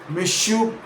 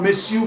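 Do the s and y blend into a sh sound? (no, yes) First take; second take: yes; no. First: The s and y blend into sh. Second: The s and y stay separate sounds.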